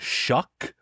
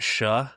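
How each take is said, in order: First: The name ends in a hard k sound. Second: The name ends in a soft breathy sound. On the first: "I don't think it's a full on shuck" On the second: "my family has always pronounced it Shuh with like a little bit of like a G H on the end"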